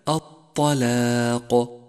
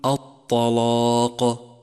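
First: The lam and alif sound light and thin. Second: The lam and alif sound heavy and thick. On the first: The speaker calls it right. "والصواب كما قلت لك الطلاق" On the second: The speaker calls it wrong. "فخطأ أن تقول الطلاق"

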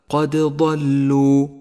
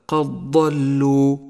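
First: The d is released with a slight echo. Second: The d merges into the following consonant. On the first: The speaker calls it right. "الدال تحتاج إلى قلقلة" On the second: The speaker calls it wrong. "تدغم الدال بالضاد، أي هكذا"

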